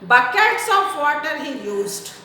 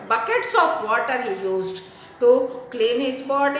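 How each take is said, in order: First: Said in the usual way. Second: "Buckets" hit firmly at the start, the rest of the line plain; stress on Buckets. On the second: Shown as a demonstration. Teacher showing the class which word to stress, with stress on "Buckets". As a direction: lean hard on the word "Buckets" to show how much was used. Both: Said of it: "stress this word".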